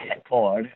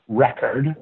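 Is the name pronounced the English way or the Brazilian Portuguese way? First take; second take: Portuguese; English. First: The name is said with a Brazilian Portuguese pronunciation. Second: The name is said with an English pronunciation.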